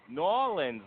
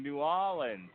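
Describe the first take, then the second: First: "New Orleans" run together as N'Orleans; "New Orleans" said the local way, first two words merged; local pronunciation. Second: Said in the usual way. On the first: Shown as a demonstration. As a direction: slur "New Orleans" into two syllables, NAW-linz. Repeats city name in local form.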